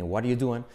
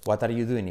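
First: "What are you doing?" reduced to "wariu duen"; native linked pronunciation. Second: "What are you doing?" as "wat ar yu duin", Spanish accent; Spanish schoolroom English, clear T and "-in" in "What are you doing?". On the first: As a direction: tap the T and merge all words of "What are you doing?". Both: Shown as a demonstration. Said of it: "una diferencia tan radical entre".

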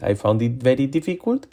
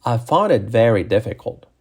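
First: "found it very difficult" with flat Spanish sounds; mispronounced English. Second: "found it very difficult" with English vowels, linked; corrected English pronunciation. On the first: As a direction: read "found it very difficult" as spelt, Spanish-style. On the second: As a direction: model "found it very difficult" in careful English sounds. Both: Shown as a demonstration. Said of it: "Cambia a".

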